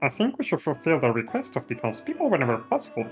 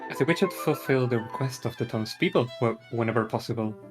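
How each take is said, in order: First: The character voice sounds goofier and sillier. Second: The character voice sounds plain, not goofy.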